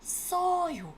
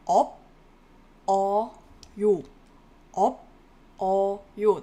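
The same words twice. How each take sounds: First: 없어요 with the ㅅ carried over, "eop-seo-yo"; linked pronunciation. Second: 업, 어, 요 read as separate syllables, loud, pauses between; 업 / 어 / 요 unlinked, a gap after each loud syllable. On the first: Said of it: "it is pronounced as". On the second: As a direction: punch out 업, then 어, then 요, each on its own. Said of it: "That's how you would read it, syllable by syllable". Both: Shown as a demonstration.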